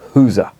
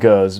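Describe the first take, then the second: First: The name is said in the Flemish way. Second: The name is said in a non-Flemish way. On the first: "he wanted me to pronounce it the Flemish way" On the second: "for argument's sake, I'm going to call it Gurs"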